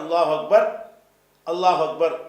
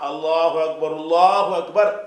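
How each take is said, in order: First: There is a breath stop between the phrases. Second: The phrases run together with a linking vowel. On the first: "மூச்சு நிப்பாட்" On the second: "சேர்த்து படிச்சிங்கன்னா"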